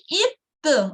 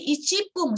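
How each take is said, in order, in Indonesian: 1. Kata ini punya 'p' ganda sebelum 'un'. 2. Kata ini punya bunyi 'chi' sebelum 'pun'. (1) "ada sekecilnya, ada konsonan gandanya" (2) "bukan menjadi icipung satu menit itu ya"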